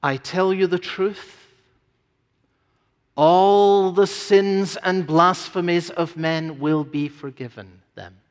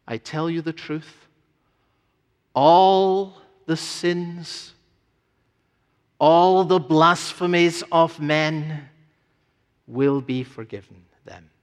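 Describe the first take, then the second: First: Said in the usual way. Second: Slow, deliberate reading with pauses; said with emphasis. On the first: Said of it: "He gives you his word on this". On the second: Shown as a demonstration. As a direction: weigh each phrase, pausing between. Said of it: "And it said with emphasis".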